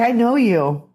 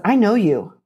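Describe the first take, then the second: First: Thrilled I know you; excited recognition. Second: Said in the usual way. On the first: Retold or imitated. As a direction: say it like you just realised who it is. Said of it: "They say". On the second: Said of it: "And they said".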